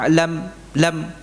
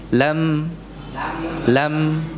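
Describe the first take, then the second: First: The L sound is cut off abruptly. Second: The L sound flows on with moderate length. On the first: The speaker calls it wrong. "Jangan dipangkas. Ya lam lam bukan begitu" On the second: The speaker calls it right. "jadi dia memiliki sifat yang sedang"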